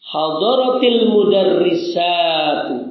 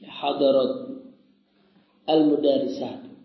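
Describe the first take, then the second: First: The t links to the next word with an i vowel. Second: The t stops without a vowel before a break. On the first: "Kenapa membacanya kok jadi hadaratil? Dengan kasrah" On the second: "Aslinya tulisannya hadarat. Taknya disukun"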